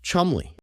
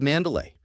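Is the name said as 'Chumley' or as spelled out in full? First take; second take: Chumley; spelled out. First: The name is said short, as 'Chumley'. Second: The name is said following its long spelling. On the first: "It is in fact pronounced Chumley" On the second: "that I pronounce incorrectly"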